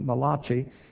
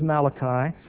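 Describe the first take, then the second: First: The name is said with an Italian-sounding pronunciation. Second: The name is said with a plain English pronunciation. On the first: The prophet is jokingly taken to be Italian. The speaker calls it wrong. "Someone said that he was the Italian prophet. They pronounced it Malachi" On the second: The prophet is not Italian. The speaker calls it right. "but actually he was Malachi"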